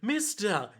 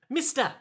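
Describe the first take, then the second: First: It is said in his normal voice. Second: It is said in a put-on character voice.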